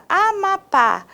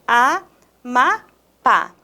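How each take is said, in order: First: Said in the usual way. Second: "Amapá" said slowly with a pause after each syllable; syllable-by-syllable "Amapá", spaced out for a class; split into syllables. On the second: Shown as a demonstration. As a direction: break "Amapá" into three separate beats, A, ma, pá. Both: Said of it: "Quando eu separo em sílabas".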